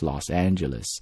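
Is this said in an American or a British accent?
American. It is said with an American accent. "If you're speaking American accent"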